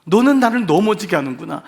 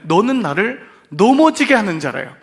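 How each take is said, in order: First: 너는 pressed, ending rising in lament; stressed repeat. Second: A firm louder rebuke, 넘어지게 hit hard; raised rebuke. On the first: Shown as a demonstration. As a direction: lean on 너는, let it rise. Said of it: "이 말을 잘 들어보세요". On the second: Retold or imitated. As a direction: lift the voice on 넘어지게, stern and rising. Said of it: "그러면서 뭐라고 하냐면".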